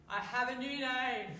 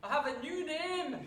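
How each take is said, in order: First: Loud, high, slow mock Scottish voice; playful put-on Scottish accent; hammed-up Scottish brogue. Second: Even higher, louder, slow Scottish voice, laughing through it; self-mocking Scottish accent, breaking into a laugh; hammed-up Scottish brogue with a laugh. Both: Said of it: "I'm not very good at the Scottish accent".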